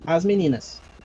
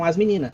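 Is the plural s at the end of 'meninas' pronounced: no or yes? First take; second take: yes; no. First: The final plural s is pronounced. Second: The final plural s is dropped. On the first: This is the standard form. "Esse seria o português público" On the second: This is everyday casual speech. "Sem flexionar o S de concordância"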